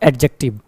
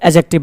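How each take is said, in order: First: The d sound is clearly pronounced. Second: The d sound is left out. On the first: The speaker calls it wrong. "Not एडजेक्टिव" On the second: The speaker calls it right. "डी क्या होता है? साइलेंट होता है। तो क्या बोलेंगे? एजेक्टिव"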